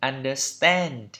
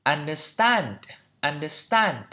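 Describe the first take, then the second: First: Understand with an American "a" leaning toward "e"; American pronunciation. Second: Understand with a British open "a" in the last syllable; British pronunciation. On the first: Teacher contrasting it with British English, American accent on understand. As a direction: say understand the American way, last vowel fronted. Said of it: "Còn trong anh Mỹ là". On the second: Teacher showing learners the British version, British accent on understand. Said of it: "trong anh Anh nó là". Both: Shown as a demonstration.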